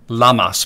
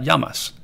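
First: The double L sounds like an English L. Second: The double L sounds like an English Y. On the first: The speaker calls it wrong. "not llamas" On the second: The speaker calls it right. "the two L's make a Y sound rather than an L sound"

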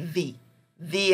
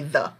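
First: The word 'the' ends in 'ee' with a Y glide. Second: The word 'the' ends in a short 'uh' sound. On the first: The next word starts with a vowel. "If it starts with a vowel, you say the information" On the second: The next word starts with a consonant. "if the word starts with a consonant, you say the students"

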